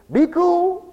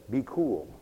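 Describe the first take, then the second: First: High, loud mock "be cool"; worldly cool talk. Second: Said in the usual way. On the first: Preacher mocking what the world says, high and loud. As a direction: mimic the world's advice, pitched way up and loud. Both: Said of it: "the world says".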